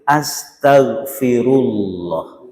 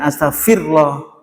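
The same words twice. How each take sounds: First: A clear 'ru' syllable is said before 'llah'. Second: The 'ru' syllable is dropped before 'llah'. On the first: The speaker calls it right. "Pakai ru ya" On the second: The speaker calls it wrong. "Jangan astagfirullah"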